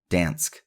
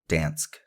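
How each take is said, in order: Both takes have the same delivery.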